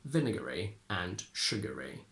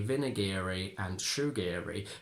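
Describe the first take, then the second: First: The endings are reduced, not like 'eerie'. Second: The endings sound like 'eerie'. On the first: The speaker calls it right. "we can only say" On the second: The speaker calls it wrong. "We can't say"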